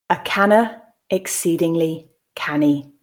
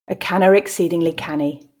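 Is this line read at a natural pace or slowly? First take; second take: slowly; natural pace. First: The line is read slowly and carefully. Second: The line is read at a natural pace. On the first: "the first time I'll read slowly" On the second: "I'll then read at a more natural pace"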